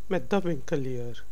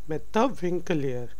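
No difference in how they are said.

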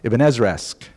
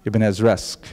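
The two takes are said the same way.

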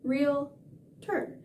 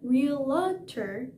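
First: The first part sounds like 'real' in 'real estate'. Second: The first part does not sound like 'real'. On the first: The speaker calls it right. "just like real estate, realtor" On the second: The speaker calls it wrong. "Not realtor"

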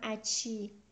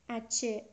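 First: The word ends with an 'ee' vowel. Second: The word ends with an 'eh' vowel. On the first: The speaker calls it wrong. "من اونجا شاید تند گفتم و گفتم اچی" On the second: The speaker calls it right. "این اچه هست"

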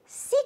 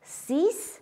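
First: The final consonant is not pronounced at all. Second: The final consonant is pronounced as s. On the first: A word starting with a consonant follows. "est muette devant une consonne" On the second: The number stands alone. "Le X de 6 et 10 se prononce S"

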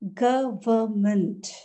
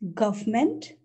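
First: The word is said with three syllables. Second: The word is said with two syllables. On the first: The speaker calls it right. "The correct pronunciation is government. It has three syllables" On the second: The speaker calls it wrong.

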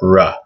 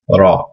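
First: The r is a heavier English-style r. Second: The r is a light flick of the tongue. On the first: The speaker calls it wrong. "It's not ra" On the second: The speaker calls it right. "you're flicking your tongue up against the top of your mouth"

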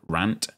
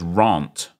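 First: The vowel sounds like the one in ant. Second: The vowel is said the non-American way. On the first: "like ant with an R in front" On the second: "but I'm not American. So therefore, it's rant"

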